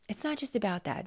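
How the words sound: It is said in a curious, friendly tone.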